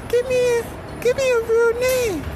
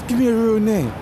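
First: The voice is altered further from his ordinary one. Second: The voice is somewhat altered from his ordinary one. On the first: "Change up the voice a little bit more" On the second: "I've got to change my voice"

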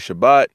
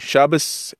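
First: It ends with a t sound, Sephardi style. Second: It ends with an s sound, Ashkenazi style.

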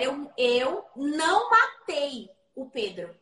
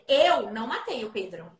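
First: The stress is on "matei". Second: The stress is on "Eu".

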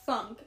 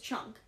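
First: The word begins with a 'th' sound. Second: The word begins with a 'ch' sound. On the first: The speaker calls it right. "I was like, that's" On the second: The speaker calls it wrong. "you said it was"

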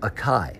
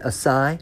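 First: The c is said as a hard k sound. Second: The c is said as a soft s sound. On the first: The speaker calls it wrong. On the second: The speaker calls it right.

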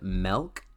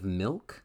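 First: The vowel sounds like 'eh', as in melk. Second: The vowel sounds like 'ih', as in milk. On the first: The speaker calls it wrong. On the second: The speaker calls it right.

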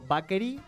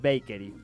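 First: The word is read with Spanish spelling sounds. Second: The word is said with English sounds. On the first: The speaker calls it wrong. "cuando yo digo bakery, está muy mal dicho" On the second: The speaker calls it right. "es bakery. Bakery se dice"

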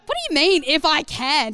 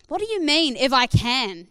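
First: It is said in a sassy, cheeky tone. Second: It is read in a plain, neutral tone.

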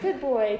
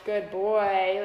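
First: The voice is high and bright. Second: The voice is low and steady. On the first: This is how one praises a dog. The speaker calls it right. "but like in a higher, even higher voice" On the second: This is how one calmly speaks to horses. The speaker calls it wrong. "in like this low voice, which is like, I call it my horse voice"

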